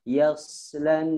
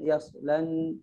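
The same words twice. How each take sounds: First: The s sound has a sharp whistling hiss. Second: The s sound is plain with no whistle. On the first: The speaker calls it right. "berikan sofir" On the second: The speaker calls it wrong. "jangan alladzi yaslan yaslan"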